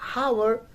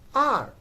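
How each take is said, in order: First: The word begins with an audible H sound. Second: The word begins directly with a vowel sound. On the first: The speaker calls it wrong. "not hour" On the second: The speaker calls it right. "but it is R"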